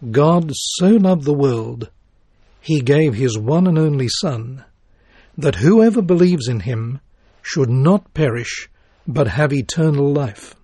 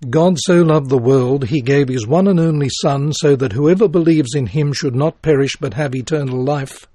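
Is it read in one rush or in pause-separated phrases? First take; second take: phrases; one rush. First: It is grouped into phrases with pauses. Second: It is rushed together without phrasing pauses.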